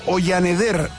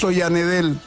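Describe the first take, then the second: First: The name ends with an R sound. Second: The name ends with an L sound.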